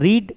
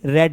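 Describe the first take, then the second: First: The vowel is a long 'ee' sound. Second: The vowel is a short 'e' sound. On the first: It is the present form of the verb. "रीड का तीनों form same होता है" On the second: It is the past form of the verb. "बस pronunciation बदल जाता है"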